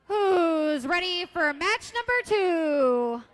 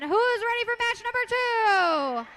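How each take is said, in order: First: It is said in a flat, bored way. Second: It is said in a lively, excited way.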